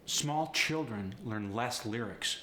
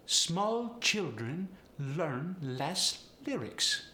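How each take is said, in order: First: Said in the usual way. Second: Polish accent with overemphasized L; slow, high Polish accent, leaning on every L. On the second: Shown as a demonstration. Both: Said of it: "The same is true with the L".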